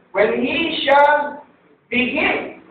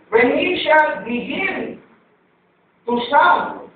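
First: "shall" drawn out slowly and held; stress on shall. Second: "shall" stretched, whole phrase slow; slow stress on shall. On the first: Pastor to congregation, stretching "shall" slowly. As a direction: lean hard on "shall", word by word. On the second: Pastor to congregation, reading "shall" very slowly. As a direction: dwell on "shall" to teach it. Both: Shown as a demonstration.

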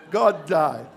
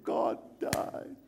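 First: Hammed-up sobbing wife; mock lady crying. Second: Hushed, breath-only mock weeping; mock tearful. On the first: Shown as a demonstration. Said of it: "you know how the ladies cry". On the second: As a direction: imitate a wife whimpering it softly. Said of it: "she started to cry".

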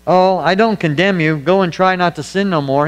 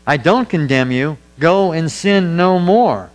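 First: Breezy, offhand mock pardon, lightly voiced; mock lenient version. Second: Earnest, slowing down on go and sin no more; firm sincere pardon. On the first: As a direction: toss it off like a lax excuse for sin. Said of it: "He didn't say". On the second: Retold or imitated. Preacher quotes Jesus to the woman, slow firm sincerity. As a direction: grant mercy but lay down the line. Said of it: "He said".

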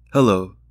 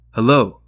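First: Said in the usual way. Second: Louder, pressing hello into the silence; a sharper, louder hello; insistent hello. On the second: Acted. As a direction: demand an answer from the line. Repeating hello into silent line.

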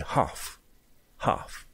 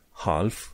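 First: "half" with a silent L; correct British pronunciation. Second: "half" with the L sounded; wrong pronunciation. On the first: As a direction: say "half" as "hahf", no L. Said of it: "e half". ("half" fără L) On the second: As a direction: say "half" with an audible L. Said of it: "Half nu e half". ("half" cu L pronunțat, greșit) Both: Shown as a demonstration.

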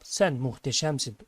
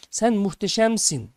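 First: Said in the usual way. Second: Slow, higher, raised call of praise; narrated shout. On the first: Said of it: "Gelen cevap". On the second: A narrator's reading. Father shouts again to the mountain, narrated shout. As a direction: call it out long and high. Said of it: "Baba tekrar bağırıyor".

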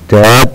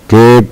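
First: تاب with an open "a", like "tap"; short a. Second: تيب with "ay", like "tape"; long a name sound. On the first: Teacher summing up the rule, short a. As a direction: say تاب using the letter's sound. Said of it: "إذا تاب الصوت". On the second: Teacher summing up the rule, long a. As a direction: say تيب using the letter's name. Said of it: "الاسم الإي". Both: Shown as a demonstration.

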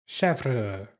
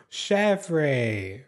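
First: Chèvre said as "SHEV-ruh"; French pronunciation. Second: Chèvre said as "shev-RAY"; two-syllable pronunciation. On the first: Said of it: "I learned the French way". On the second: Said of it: "I don't know how to say her name". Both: Shown as a demonstration.

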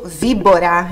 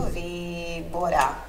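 First: Said in the usual way. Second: "víbora" com a sílaba VÍ lenta e marcada; acento em VÍ. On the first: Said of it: "Enquanto víbora em português". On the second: Shown as a demonstration. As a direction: alongue o vi de "víbora", bem devagar. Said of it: "tem um acento". (sílaba tônica vi em "víbora", bem devagar)

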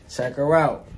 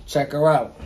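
Both takes have the same delivery.

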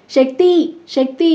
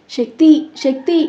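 First: High, loud desperate yell of a name; screaming for help. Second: Loud, high rising call of a name; calling loudly. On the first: Wife screaming for husband as mother-in-law collapses, panicked. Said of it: "అని గొంతు చించుకొని అరిచిన". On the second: Mother calling her son back as he leaves, loud calls. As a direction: call after him up the stairs. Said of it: "అని గట్టిగా పిలుస్తూ". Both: A narrator's reading.

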